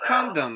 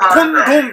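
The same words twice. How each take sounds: First: It is said with an English-style pronunciation. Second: It is said with a Korean-style pronunciation. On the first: The speaker calls it right. "이러죠" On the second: The speaker calls it wrong. "이렇게 발음 안 해요"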